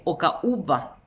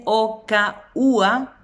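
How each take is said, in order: First: "ocaúba" con la b entre ú y a; consonante conservada. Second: "ocaúa" lento, sin b entre ú y a; consonante omitida. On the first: Shown as a demonstration. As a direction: marca la b de "ocaúba". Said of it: "en vez de decir ocaúba". ("ocaúba" completo, sin omitir la b) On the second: Retold or imitated. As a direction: separa "o, ca, úa" comiéndote la b. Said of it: "Te dicen ocaúa". ("ocaúa" pausado y sin b)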